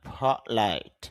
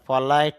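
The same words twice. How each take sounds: First: The p is said with a puff of air. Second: The p is said without a puff of air. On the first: The speaker calls it right. "বাতাস বের করতে পারি আমরা।" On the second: The speaker calls it wrong. "ফলাইট না"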